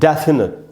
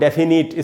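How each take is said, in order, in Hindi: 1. पहले अक्षर पर ज़ोर है और उसे खींचा जाता है। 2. पहले अक्षर पर न ज़ोर है, न उसे खींचा जाता है। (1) "डै में जो ए है वहीं पर स्ट्रेस है" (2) "इस प्रकार से नहीं पढ़ेंगे"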